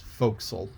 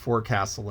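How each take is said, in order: First: The word is pronounced in a shortened, reduced form. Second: The word is pronounced fully, as it is spelled. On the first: The speaker calls it right. "but it's forecastle" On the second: The speaker calls it wrong. "I read it and phonetically"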